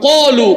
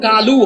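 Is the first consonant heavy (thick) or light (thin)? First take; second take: heavy; light. First: The first consonant is heavy, a thick q. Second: The first consonant is light, Bengali-style k. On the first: The speaker calls it right. "আরবিতে সাতটা অক্ষর মোটা" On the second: The speaker calls it wrong. "বাংলায় যেটা কালু হয়"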